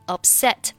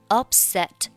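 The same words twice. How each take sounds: First: The stress is on the second syllable. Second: The stress is on the first syllable. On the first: The word is used as a noun. "重音是放在了后面" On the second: The word is used as a verb or adjective. "重音是放在了开头"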